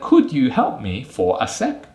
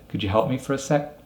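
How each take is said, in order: First: Each word is said fully and separately. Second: The words run together with reduced weak forms. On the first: The speaker calls it wrong. "we wouldn't say" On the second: The speaker calls it right. "we'd say"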